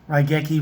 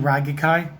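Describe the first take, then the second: First: The name ends with a 'kee' sound. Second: The name ends with a 'kai' sound.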